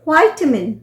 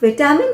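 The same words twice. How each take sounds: First: It is said with an American pronunciation. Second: It is said with a British pronunciation.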